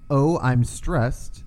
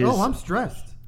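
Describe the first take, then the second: First: It is said in his normal voice. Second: It is said in a Jerry impression.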